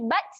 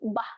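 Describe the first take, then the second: First: The syllable ends with a t sound. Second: The syllable ends with an h sound. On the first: The speaker calls it wrong. "dia bukan bunyi bat" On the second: The speaker calls it right. "tetapi menghasilkan bunyi bah"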